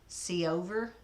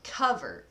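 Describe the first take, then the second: First: It sounds like two syllables, co-over. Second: It sounds like the everyday word cover. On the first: The speaker calls it right. "but actually pronounced sea over" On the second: The speaker calls it wrong. "as in a blanket"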